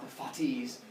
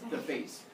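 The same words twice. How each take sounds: First: Fates is given a Greek-sounding pronunciation. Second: Fates is given a plain English pronunciation. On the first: The speaker calls it wrong. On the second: The speaker calls it right.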